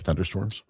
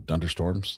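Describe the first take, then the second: First: The word starts with a TH sound. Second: The word starts with a D sound. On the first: The standard word being explained. "like thunderstorms" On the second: A child's mispronunciation of the word. "that's how our grandson called it"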